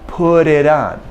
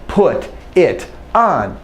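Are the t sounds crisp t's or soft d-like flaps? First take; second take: d-like flaps; crisp t's. First: The t sounds are soft, like a quick d. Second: The t sounds are crisp, clearly released t's. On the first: This is ordinary everyday speech. The speaker calls it right. "we still render this as this D kind of sound" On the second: The speaker is being very clear or emphatic. The speaker calls it wrong. "It's not put it on, except if I'm trying to be very clear or emphasizing"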